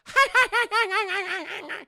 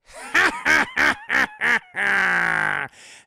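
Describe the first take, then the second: First: High, yapping chihuahua cackle; Dane DeHaan. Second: Loud, spaced-out goblin cackle; big deliberate evil laugh building to a long tail; villain cackle. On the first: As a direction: laugh like a chihuahua barking at you. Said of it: "he sounds like a chihuahua". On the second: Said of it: "he doesn't have the Willem Dafoe". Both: Acted.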